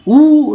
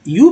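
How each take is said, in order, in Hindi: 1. यह सादा "oo" ध्वनि है। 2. यह "oo" से पहले "y" की ग्लाइड है। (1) "ऊ नहीं" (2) "यू यू पढ़ते हैं"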